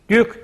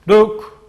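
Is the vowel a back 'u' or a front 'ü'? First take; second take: front ü; back u. First: The vowel is a front ü sound. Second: The vowel is a back u sound. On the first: The speaker calls it wrong. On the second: The speaker calls it right.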